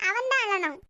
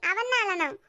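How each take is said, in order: Both takes have the same delivery.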